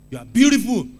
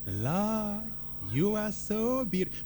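First: Booming shouted praise; loud declaration. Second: Tender praise. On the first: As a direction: belt it out at God. Demo of loud flat address to God. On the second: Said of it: "But how about this?". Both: Shown as a demonstration.

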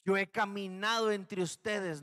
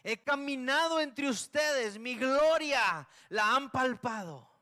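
First: Steady, measured divine statement, stress on "caminado"; a calm announcement from God. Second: Higher, louder and slow, thundering rebuke with "caminado" stretched out; God raising his voice in slow judgment. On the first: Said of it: "la voz de Dios que dijo". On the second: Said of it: "nos dijo el Señor". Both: Acted.

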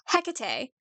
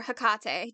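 First: Hecate said HEK-uh-tay, first syllable stressed. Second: Hecate said huh-KAH-tay, middle syllable stressed. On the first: Podcaster offering one way to say the goddess's name, Hecate as HEK-uh-tay. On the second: Podcaster offering the other way to say the goddess's name, Hecate as huh-KAH-tay. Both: Shown as a demonstration. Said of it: "depending on how you wanna say it".

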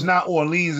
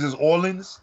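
First: Orleans ending in long "leenz"; wrong pronunciation. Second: Orleans with short "linz", as a question; local pronunciation. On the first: Checking with co-host, Orleans with "leenz". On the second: Checking the correction with co-host, Orleans with "linz". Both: Shown as a demonstration. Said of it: "So it's not Orleans".

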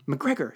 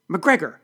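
First: Said in the usual way. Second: Sharp, high bark of a name. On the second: A narrator's reading. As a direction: bark it loud to snap someone to attention. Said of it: "she barked".

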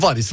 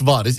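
First: Varis with a short first a; short-vowel reading of varis; first pronunciation variant. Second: Varis with a long first a, "vaaris"; long-vowel reading of varis; second pronunciation variant. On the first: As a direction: say varis quickly, the a kept short. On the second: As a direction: stretch the a in varis. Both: Shown as a demonstration. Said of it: "İki türlü de okunur".

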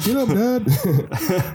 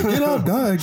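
First: High dog voice, stretched slow with a rise; drawn-out whiny plea from the pet dog. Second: High-pitched dog voice pleading, falling. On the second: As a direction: voice the pet dog nudging its owner awake. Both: Pretend. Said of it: "Grace would be, like, licking my face".

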